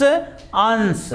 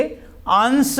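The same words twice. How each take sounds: First: अंश said slowly with a dental s, "ans"; dental s sound. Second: अंश said with a palatal sh, "ansh"; palatal sh sound. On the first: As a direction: stretch अंश and end it on a plain dental s. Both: Shown as a demonstration. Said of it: "ये तालव्य स और ये कौन सा है, दंत स".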